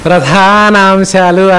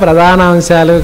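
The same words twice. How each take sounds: First: The word is said with a careful pronunciation. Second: The word is said with a careless pronunciation. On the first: This is how it should be said. The speaker calls it right. "ప్రధానాంశాలు అనాలి నాయన" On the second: This is how it should not be said. The speaker calls it wrong. "ప్రధానాంశాలు కాదు"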